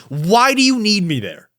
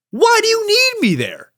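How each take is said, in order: First: Only a little higher, firm demand; calmer heated question. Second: Much higher, near-shrieking question; heated outburst. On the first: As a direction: ask again, more controlled. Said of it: "I'm actually fired up". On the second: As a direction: let the frustration peak on the repeat. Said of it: "I'm heated". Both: Real, not acted.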